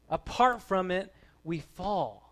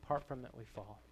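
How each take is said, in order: First: Raised, forceful voice dropping onto the last words; emphatic preaching. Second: Subdued repeat. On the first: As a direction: proclaim it as a solemn warning. Climax of preaching, then repeated softly. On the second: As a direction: let it sink in quietly after the big proclamation. Hushed repeat after long pause. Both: Real, not acted.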